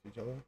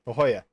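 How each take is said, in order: First: The middle consonant sounds like an English J. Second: The middle consonant sounds like an English H. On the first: The speaker calls it wrong. "That's not right. Doesn't sound right" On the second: The speaker calls it right. "sounds like an H there"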